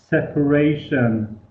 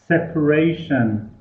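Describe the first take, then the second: No difference in how they are said.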